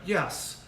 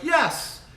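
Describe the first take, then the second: First: The word is said in a calm, plain way. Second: The word is said in an excited, energetic way. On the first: The dog did the task in an ordinary way. "sometimes you're like yes" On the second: The dog did the task really well. "sometimes your dog does it really awesome and you're like yes"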